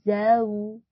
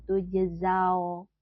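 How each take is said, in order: First: "zau" louder, lips pushed forward; "zau" with a full rounded "au"; correct vowel. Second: "tujzau" with a flat "zao"; "tujzau" with unrounded lips; wrong vowel. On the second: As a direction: show the careless "tujzau". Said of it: "jangan tujzau". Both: Shown as a demonstration.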